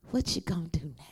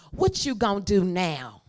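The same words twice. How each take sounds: First: Whispered repeat. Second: Call to repeat. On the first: Preacher whispering the repeated line to the congregation. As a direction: hush it back to the preacher. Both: Shown as a demonstration. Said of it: "y'all have to repeat after me".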